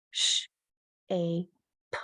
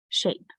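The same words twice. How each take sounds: First: "Sh, a, p" as three sounds with gaps; "Sh, a, p" said one phoneme at a time; segmented sounds. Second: Said in the usual way. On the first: Shown as a demonstration. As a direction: chop the word into "Sh", "a", "p". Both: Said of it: "segment the words".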